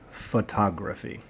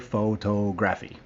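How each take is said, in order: First: The O vowels are said as soft sounds. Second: The O vowels are said as long O sounds. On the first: The speaker calls it right. "the correct way" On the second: The speaker calls it wrong. "Do not say photography. That's very bad"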